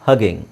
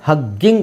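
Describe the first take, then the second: First: The middle g sound is single and short. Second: The middle g sound is doubled and held long. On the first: The speaker calls it right. "ಒತ್ತಿ ಹೇಳೋ ಅವಶ್ಯಕತೆ ಇಲ್ಲ" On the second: The speaker calls it wrong. "ಎರಡು ಜಿ ಇದೆ, ಹಗ್ಗಿಂಗ್ ಅಲ್ಲ"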